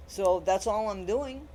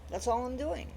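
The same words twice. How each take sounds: First: Said in the usual way. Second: "That's all I'm doing" repeated higher and softer, stress on all. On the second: Real, not acted. To viewers, restating her point, softer and higher on all.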